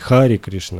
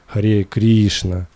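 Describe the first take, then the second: First: The first word ends in an 'ee' sound. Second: The first word ends in an 'eh' sound. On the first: The speaker calls it wrong. "мы говорим не Хари Кришна" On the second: The speaker calls it right. "мы говорим Харе"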